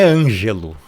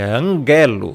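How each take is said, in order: First: The g is soft, like a j sound. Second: The g is hard, not like j. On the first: The speaker calls it wrong. "não é ângelo" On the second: The speaker calls it right. "esse gama ele não tem som de G"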